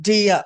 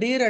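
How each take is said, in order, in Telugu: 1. ఇది 'dee-uh' లా వినిపిస్తుంది, చివర r లేకుండా. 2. ఇది 'deer' లా వినిపిస్తుంది, చివర r తో. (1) "డీర్ కాదండి" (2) "చాలా మంది డీర్ డీర్ అంటారు"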